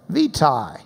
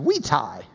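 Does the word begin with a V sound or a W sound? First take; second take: V sound; W sound. First: The word begins with a V sound. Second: The word begins with a W sound.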